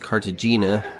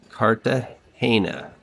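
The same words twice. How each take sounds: First: The g is said as a hard g. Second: The g is said as an h sound. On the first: The speaker calls it wrong. "I said this city's name was Cartagena" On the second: The speaker calls it right. "the G's and the J's are all pronounced as H's"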